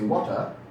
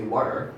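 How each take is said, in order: First: It is said in an English accent. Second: It is said in a non-English accent. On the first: This is how people from England say it. "people from England, they say water" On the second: This is how the speaker says it. "and I say water"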